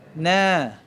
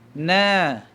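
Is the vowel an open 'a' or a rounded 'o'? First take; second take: a; a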